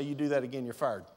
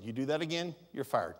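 First: Calm firm warning. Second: Low, quiet, steady firing warning; calm firm warning. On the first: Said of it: "Just simply say". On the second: Pastor shows staff a calm warning, low and quiet. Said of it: "I will do exactly what I said". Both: Shown as a demonstration. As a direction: state it plainly without raising the voice.

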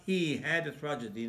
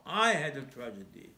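First: "he" set apart as the wrong person; stress on he. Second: "I" stressed as the correction. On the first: Preacher rejecting the idea that another suffered, stress on "he". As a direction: lean on "he" as the contrast. Contrasting he with I. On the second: Preacher claiming another's suffering as his own, stress on "I". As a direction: punch "I" hard. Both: Shown as a demonstration.

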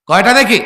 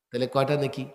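First: High, loud repeat of the question; shouted question. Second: Said in the usual way. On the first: Real, not acted. Preacher pressing the crowd for an answer, shouting.

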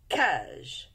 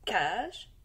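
First: Cage said with a falling close, the first sound clear; word said for sounding. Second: Cage rising at the end, as if to ask which sound; repeated with a rise. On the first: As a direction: say cage as a prompt for pupils. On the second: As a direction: repeat Cage with an upward lift. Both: Shown as a demonstration. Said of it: "comme dans canard".

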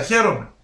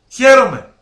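First: Said in the usual way. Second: Χαίρομαι said again much louder and higher; χαίρομαι, loud and higher, falling at the end; emphatic repeat. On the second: Real, not acted.

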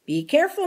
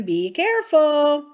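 First: Said in the usual way. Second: Careful stretched slow and pressed harder; urgent repeated warning. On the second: Acted. Lee to Mister Hamilton, begging him to stop, slow and pleading. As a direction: lean on careful, drawing it out as a plea. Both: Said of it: "Lee said".

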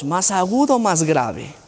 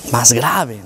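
First: Said in the usual way. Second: A lower pitch to show a sad, deeper voice; lower answer. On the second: Shown as a demonstration. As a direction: drop the pitch to demo the low voice.

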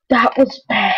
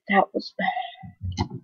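First: Said in the usual way. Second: Slow whispered "That was bad.". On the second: Shown as a demonstration. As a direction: breathe it out as a whisper, slowly. Repeats the line as a whisper.

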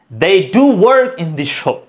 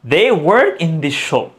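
First: Slow, with "do" pressed firmly; stress on do. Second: Said in the usual way. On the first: Shown as a demonstration. Teacher contrasting plain and emphatic, stressed "do". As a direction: insist by leaning on "do". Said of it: "জোর দিয়ে বলছি". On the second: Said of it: "এটা কি হয়?".

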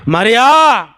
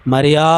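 First: High, ringing call of the name; loud calling out. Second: Name called at low pitch; low-key calling. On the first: Jesus calls Mary with one word, calling out loudly. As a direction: call MARIA out loud, pitched up. ఒకే ఒక పిలుపు. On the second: Jesus calls Mary by name, a simple low-key call. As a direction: call MARIA simply, without lifting the pitch. యేసయ్య అంటున్నాడు. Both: Acted.

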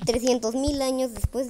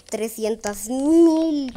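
First: Said in the usual way. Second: Drawn-out reading. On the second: Real, not acted. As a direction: stretch each word out very slowly.

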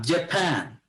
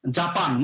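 First: "জাপান" as juh-PAN, second syllable stressed; English-style "জাপান" with a puffed p; English pronunciation of Japan. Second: Said in the usual way. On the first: Shown as a demonstration. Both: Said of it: "আমরা বলি জাপান না".

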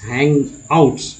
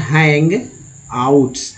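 First: Said in the usual way. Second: हैंग and आउट्स said as separate parts; split syllables. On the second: Shown as a demonstration. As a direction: pause between हैंग and आउट्स. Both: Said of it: "क्या पढ़ा जाता है".

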